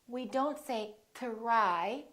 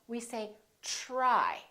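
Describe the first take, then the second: First: The word starts with a plain, crisp t sound. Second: The word starts with a soft ch-like sound. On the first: The speaker calls it wrong. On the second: The speaker calls it right. "it becomes like a ch sound"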